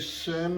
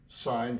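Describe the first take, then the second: First: The word is said with a short 'i', like 'sin'. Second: The word is said with a long 'i', like 'sign'. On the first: The speaker calls it wrong. "If you say sin of theta, I would direct you down the hall to the religion department" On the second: The speaker calls it right. "I will expect you to be thinking and saying sine theta"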